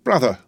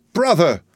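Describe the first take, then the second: First: A higher, louder tearful call; a milder first cry of brother. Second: Much higher, louder tearful cry; the second cry rises to a sob; bursting into tears. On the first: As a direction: start calling him through tears. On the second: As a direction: break into a wail of brother. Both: A narrator's reading. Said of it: "cried Miss Pross, bursting into tears".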